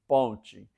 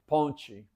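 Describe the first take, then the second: No difference in how they are said.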